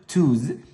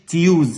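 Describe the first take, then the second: First: No 'y' glide follows the t sound. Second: A 'y' glide follows the t sound. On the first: The speaker calls it right. "هنقول توز" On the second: The speaker calls it wrong. "ما تقولش تيوز"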